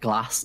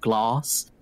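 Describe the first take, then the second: First: It is said with a Northern English accent. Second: It is said with a Southern English accent.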